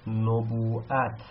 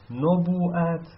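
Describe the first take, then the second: First: نبوءت drawn out slowly, syllable by syllable; careful slow teacher reading of نبوءت; slow model reading. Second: نبوءت said again higher and louder; emphatic teacher repeat of نبوءت. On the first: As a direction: spell out نبوءت slowly for students. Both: Shown as a demonstration. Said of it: "مثل".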